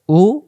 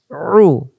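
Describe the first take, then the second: First: Long open "উ"; "উ" without throat pressure; hamza u. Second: Drawn-out "রু" as pharyngeal oo, no r; squeezed ain u. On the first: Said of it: "হামজা পেশ". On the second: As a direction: press the throat for "রু". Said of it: "আইনের বেলা". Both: Shown as a demonstration.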